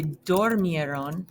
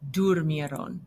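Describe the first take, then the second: First: "dormieron" with O in the first syllable; regular wrong form. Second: "durmieron" with U in the first syllable; stem-changed form. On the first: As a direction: say "dormieron" as dor-MIE-ron, no vowel change. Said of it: "you would wanna say". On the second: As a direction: say "durmieron" as dur-MIE-ron, with an OO sound. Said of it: "gonna have that stem change". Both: Shown as a demonstration.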